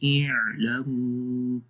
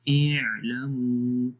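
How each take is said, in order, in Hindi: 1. यह आवाज़ बीच की लंबाई में छोड़ी जाती है। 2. यह आवाज़ बीच की लंबाई में छोड़ी जाती है।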